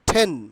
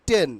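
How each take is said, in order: First: The t is breathy and aspirated, like Bengali ঠ. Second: The t is soft and unaspirated, like Bengali ট. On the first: The speaker calls it right. "ইট will be pronounced only টেন" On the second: The speaker calls it wrong. "এতদিন কি উচ্চারণ করেছি? ... ইট was টোটালি wrong."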